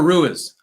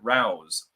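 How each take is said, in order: First: The vowel in the name sounds like 'oo-ee'. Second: The vowel in the name sounds like 'ow'. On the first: The speaker calls it right. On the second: The speaker calls it wrong.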